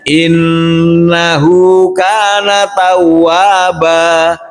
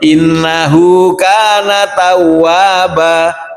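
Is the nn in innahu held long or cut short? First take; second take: long; short. First: The nn in innahu is held long. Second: The nn in innahu is cut short. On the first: The speaker calls it right. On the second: The speaker calls it wrong. "tidak memanjangkan atau menahan nun tasid"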